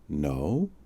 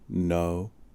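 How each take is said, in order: First: The voice rises at the end. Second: The voice stays level throughout.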